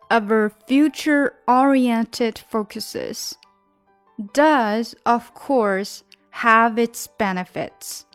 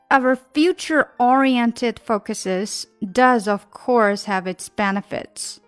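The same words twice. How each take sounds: First: The sentence is read at a slower pace. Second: The sentence is read at a faster pace.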